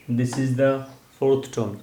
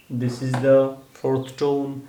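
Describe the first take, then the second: First: Said in the usual way. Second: "This is the fourth tone" said slowly and evenly; slow demo. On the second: Shown as a demonstration. Teacher explaining the fourth tone, said slowly. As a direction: spell it out slowly for the class.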